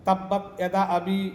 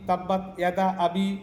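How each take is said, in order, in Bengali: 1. yada শব্দের স্বরবর্ণটি ছোট করে, হ্রস্ব করে পড়া হয়। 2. yada শব্দের স্বরবর্ণটি ছোট করে, হ্রস্ব করে পড়া হয়।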